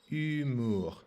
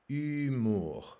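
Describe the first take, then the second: First: The initial h sound is silent. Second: The same.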